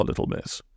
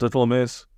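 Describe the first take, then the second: First: Breathy hush on little miss; Friday hushing Polly in the dark, whispering. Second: Said in the usual way. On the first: A narrator's reading. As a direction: drop to a whisper.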